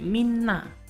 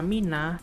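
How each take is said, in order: First: The middle consonant is held long, doubled. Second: The middle consonant is short, not doubled. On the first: The speaker calls it right. "tapi minna" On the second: The speaker calls it wrong. "bukan dibaca mina"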